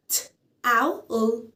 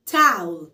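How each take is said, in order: First: Towel split as "ت", "أو", "ال", slowly; sound by sound. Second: Said in the usual way. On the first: Shown as a demonstration. Teacher splits towel for learners, slowly sound by sound. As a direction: break towel into three slow separate sounds. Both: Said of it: "فأنا مقسمة مقاطع".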